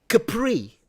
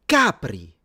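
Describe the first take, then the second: First: The name is said the French way. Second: The name is said the Italian way. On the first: The speaker calls it wrong. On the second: The speaker calls it right.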